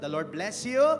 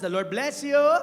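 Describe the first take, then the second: First: It is said at normal loudness. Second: It is said more loudly.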